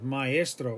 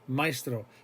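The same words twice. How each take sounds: First: The a and e are said as separate syllables. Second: The a and e glide together into one syllable. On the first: The speaker calls it right. "We're hitting the A and we're hitting the E" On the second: The speaker calls it wrong. "if you pronounce it like a diphthong"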